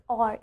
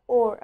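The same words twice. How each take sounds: First: "or" with an open ah, like "ar"; O R E said wrongly. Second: "or" with a rounded aw sound. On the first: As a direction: misread "or" as "ahr". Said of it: "we don't pronounce it as or". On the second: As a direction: say "or" as in more. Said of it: "Instead, we pronounce it as or". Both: Shown as a demonstration.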